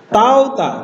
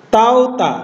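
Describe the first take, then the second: No difference in how they are said.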